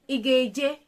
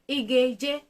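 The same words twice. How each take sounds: The two takes are said the same way.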